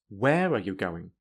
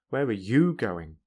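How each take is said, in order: First: The strongest stress falls on the word where. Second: The strongest stress falls on the word you. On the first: "add strong stress to where" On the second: "and you"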